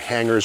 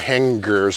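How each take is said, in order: First: It is said in a general American accent. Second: It is said in a local Worcester accent.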